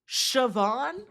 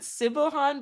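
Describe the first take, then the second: First: The name is said with two short syllables. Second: The name is said with three spelled-out syllables. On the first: The speaker calls it right. "Did y'all know that's pronounced Siobhan?" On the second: The speaker calls it wrong. "I pronounce it Sibahan, but I'm pretty sure it's not pronounced like that"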